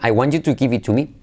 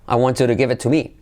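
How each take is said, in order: First: It is spoken with a strong Spanish accent. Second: It is spoken with a native-like English accent. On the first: "Sometimes you want to just keep your accent" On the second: "Or you can switch and say"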